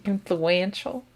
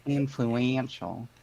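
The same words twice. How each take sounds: First: "Influential" stretched slow with a southern drawl. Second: "Influential" mimicked slow and drawn out, falling flat; slow mock drawl. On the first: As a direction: say "Influential" slowly, drawn out, with a rising end. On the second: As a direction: imitate "Influential" slowly and drawn out like a southern drawl. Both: Shown as a demonstration. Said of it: "Your southern accent coming out there".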